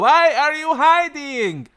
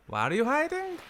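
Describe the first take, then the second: First: It is said loudly. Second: It is said quietly.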